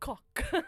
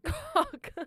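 First: The word is said without laughing. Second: The word is said while laughing. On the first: "I'll say it with a straight face" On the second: "It's because I'm laughing"

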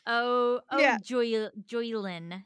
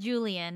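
First: The first syllable sounds like 'joy'. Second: The first syllable sounds like 'jew'. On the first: The speaker calls it right. "Joylin, not Julian" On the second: The speaker calls it wrong. "not Julian, as my brain keeps telling me"

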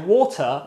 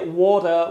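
First: The middle consonant is a crisp T. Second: The middle consonant sounds like a soft D. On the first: "I will say water" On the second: "I will not say water with a D"

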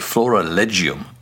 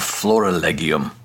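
First: It uses the ecclesiastical Latin pronunciation. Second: It uses the classical Latin pronunciation.

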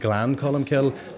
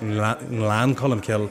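First: The G starts plainly with no nasal sound before it. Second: A slight N sound comes before the G. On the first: The speaker calls it wrong. "I was going Glan Colum Kill" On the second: The speaker calls it right. "get the tongue up to the roof of the mouth"

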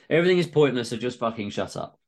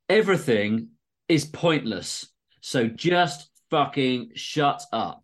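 First: It is read in a plain, casual tone. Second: It is read in a weighty, solemn tone.

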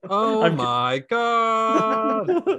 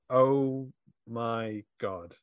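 First: The word God is stretched out very long. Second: The word God is said at normal length.

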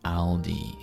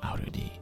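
First: The L runs straight into the D. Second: An R-like sound adds an extra u vowel. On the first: The speaker calls it right. "drop that u from the end of lu and try to say Aldi" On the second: The speaker calls it wrong. "instead of Arudi"

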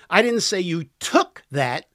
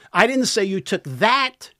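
First: The stress is on the word 'took'. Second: The stress is on the word 'that'. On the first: The listener borrowed it. "You borrowed it" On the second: The listener took something else. "Took something else"

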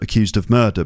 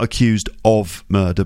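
First: The word 'of' is said weakly with a schwa. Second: The word 'of' is said with a full vowel. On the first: The speaker calls it right. "but ... because of is not really a meaning word" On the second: The speaker calls it wrong. "It's not"

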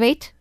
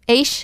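First: The word ends in a crisp t sound. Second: The word ends in a soft sh-like sound. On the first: "than the British T" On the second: "more like the Dublin SH"

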